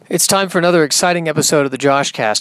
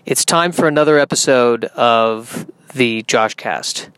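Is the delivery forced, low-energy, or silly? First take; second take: forced; low-energy. First: It is said with forced, overdone enthusiasm. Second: It is said flatly with low energy.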